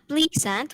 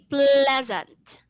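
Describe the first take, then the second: First: The middle consonant is an s sound. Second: The middle consonant is a z sound. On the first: The speaker calls it wrong. "not pleasant" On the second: The speaker calls it right. "we say pleasant. ... that z sound"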